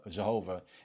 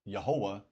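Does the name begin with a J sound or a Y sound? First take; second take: J sound; Y sound. First: The name begins with a J sound. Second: The name begins with a Y sound. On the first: The speaker calls it wrong. "the creator's name is not Jehovah because there's no J in Hebrew" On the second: The speaker calls it right. "technically it's Yehovah"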